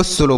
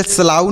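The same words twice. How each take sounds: First: "स्लो" ending in a long pure o; ow read as o. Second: "स्लाऊ" with an au glide at the end; ow misread as au. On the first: Teacher corrects the misreading, "स्लो" ending in o. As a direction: say "स्लो" with o, not au. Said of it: "इसको स्लो पढ़ेंगे". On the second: Teacher warns children off a misreading, "स्लाऊ" with au. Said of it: "इसे स्लाऊ नहीं पढ़ेंगे". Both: Shown as a demonstration.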